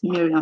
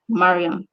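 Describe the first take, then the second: First: The first syllable is said like 'mir'. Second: The first syllable is said like 'mar'. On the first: The speaker calls it wrong. "not Miriam, like most of you pronounce it" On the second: The speaker calls it right. "it is pronounced Mariam"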